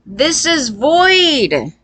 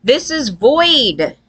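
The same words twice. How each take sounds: First: Slower, higher mock repeat. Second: Said in the usual way. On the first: Shown as a demonstration. Mocking sociopath logic for viewers, drawn-out mock tone. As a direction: drag out "void" on a raised, put-on tone.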